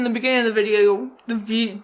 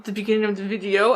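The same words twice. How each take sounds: First: Unintended hint of French accent; accidental French accent. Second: Said in the usual way. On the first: Real, not acted. Tipsy vlogger stumbling over her words, accidental French accent. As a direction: slip into a slight French accent. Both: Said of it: "I just got a French accent".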